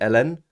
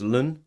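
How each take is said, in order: First: It is said as two separate letter names. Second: It is said as a single syllable. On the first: This is how another group says it. "some of the Americans say L N" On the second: This is how one group says it. "We say that as Lun"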